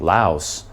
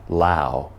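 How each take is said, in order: First: The final S sound is pronounced. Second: The final S sound is silent. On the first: The speaker calls it wrong. "me saying Laos my whole life, that is actually incorrect" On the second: The speaker calls it right. "The S is supposed to be silent. The correct pronunciation is Lao"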